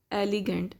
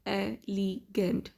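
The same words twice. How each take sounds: First: Said in the usual way. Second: "elegant" split slowly into e-le-gant; syllable by syllable. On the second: Shown as a demonstration. Teacher showing three syllables to learners, "elegant" slowly broken up. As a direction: sound out "elegant" with a gap after each syllable. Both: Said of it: "it has three syllables".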